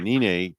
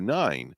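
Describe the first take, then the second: First: The name is pronounced the Spanish way. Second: The name is pronounced the English way. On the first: This is the original family name from Puerto Rico. "in Spanish it was Nine" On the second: This is the legally changed name used in the States. "he moved to the states"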